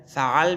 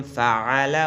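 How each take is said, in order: First: فعل said "fa'al", closed on the l; pausal ending. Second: فعل said "fa'ala", ending on an open a; full final vowel. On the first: Quran teacher showing waqf, فعل ending consonant-final as "fa'al". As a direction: drop the last vowel of فعل and stop on l. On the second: Quran teacher showing the unpaused word, فعل as "fa'ala". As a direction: sound every vowel in فعل, including the last. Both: Shown as a demonstration.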